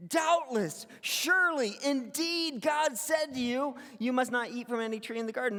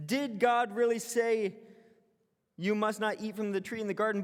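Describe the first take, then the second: First: DOUBTLESS and SURELY punched high and loud; strong affirmative emphasis. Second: Said in the usual way. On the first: Shown as a demonstration. Pastor showing congregation the Hebrew affirmative, emphatic. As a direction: lean hard on "Doubtless" as a sure statement. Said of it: "It's a strong affirmative". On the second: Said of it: "It says".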